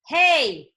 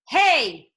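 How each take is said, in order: Both takes have the same delivery.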